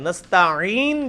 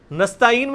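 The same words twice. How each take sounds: First: نستعین drawn out with ع from the throat; true throaty ain. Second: نستعین quick, with a plain alif sound for ع; everyday نستعین, ain turned into hamza. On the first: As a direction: stretch and squeeze the ain in نستعین. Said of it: "جب پڑھیں گے وہ عین ہوگا". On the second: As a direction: say نستعین without any throat squeeze. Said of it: "آپ نے الف یا حمزہ پڑھ دیا ہے". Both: Shown as a demonstration.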